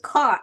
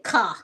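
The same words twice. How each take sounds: First: The final R is clearly sounded. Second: The final R is dropped, Chicago style.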